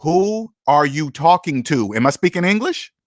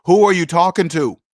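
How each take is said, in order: First: Slow and measured, each word spelled out; slow deliberate challenge. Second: Quick, level comeback to a rude manager; firm challenge. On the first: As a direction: look them in the eye and take your time. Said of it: "You're gonna say". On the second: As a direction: toss the question back at them straight. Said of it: "You're gonna turn to 'em and say". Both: Retold or imitated.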